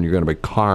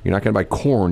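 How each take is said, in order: First: "carn" with a broad ar vowel like car; Missouri carn. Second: Said in the usual way. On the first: Shown as a demonstration. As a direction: say "carn" rhyming with barn.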